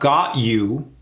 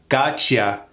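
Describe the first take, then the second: First: The two words are said fully and separately. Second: The words blend into one reduced word. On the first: The speaker calls it wrong. "Not got you" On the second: The speaker calls it right.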